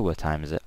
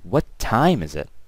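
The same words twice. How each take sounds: First: The word time carries no special stress. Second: The word time is stressed. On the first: The speaker calls it wrong. "I didn't say what time is it" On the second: The speaker calls it right. "my intonation throughout that sentence on the word time specifically"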